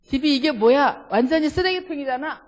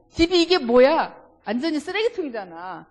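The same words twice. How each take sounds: First: Loud, higher nagging about the messy house; husband scolding his wife over the mess, loudly; scolding complaint. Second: Loud, higher angry complaint, 완전히 hit hard; a bit angry. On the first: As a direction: complain hard that the house is a dump. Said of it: "남성분들 해봅시다". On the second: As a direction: snap it out like an annoyed husband. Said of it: "좀 화난 것처럼". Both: Shown as a demonstration.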